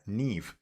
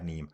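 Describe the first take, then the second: First: The name ends with a V sound. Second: The name ends with an M sound. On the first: The speaker calls it right. "Neem is pronounced Neve" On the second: The speaker calls it wrong. "I'm going to probably keep saying Neem"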